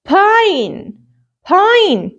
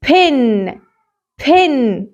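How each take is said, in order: First: "Pine" with a drawn-out "eye" vowel, higher and falling; long I. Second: "Pin" with short i and a lingering n. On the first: Teacher models the word with E added, long I. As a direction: stretch the letter-name I in "Pine". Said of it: "هتلاقيني بنطقها I". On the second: Teacher reads the word before adding magic E, short I. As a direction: say "Pin" with the i of "ink". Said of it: "صوت ال I وهو short". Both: Shown as a demonstration.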